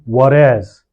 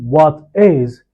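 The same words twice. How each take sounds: First: The T sounds like a quick light D. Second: The T is a clear, crisp T sound. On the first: "you say" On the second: "instead of saying"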